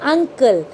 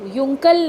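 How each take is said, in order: First: The word begins with an 'uh' sound. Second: The word begins with a 'yoo' sound. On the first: The speaker calls it right. "We use to read it अंकल" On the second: The speaker calls it wrong. "हम तभी इसको युंकल नहीं पढ़ते हैं"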